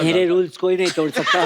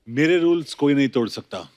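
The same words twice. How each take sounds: First: It is said in a high, squeaky voice. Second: It is said in his normal voice.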